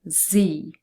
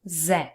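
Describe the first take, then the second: First: The letter is said the American way. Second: The letter is said the non-American way.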